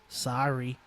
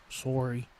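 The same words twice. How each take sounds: First: "sorry" with an open "SAH-ree" vowel; "sorry" with an unrounded "ah" in the first syllable; American "sorry". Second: "sorry" with a rounded "SORE-ee" vowel; "sorry" with a long "or" in the first syllable; Canadian "sorry". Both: Shown as a demonstration.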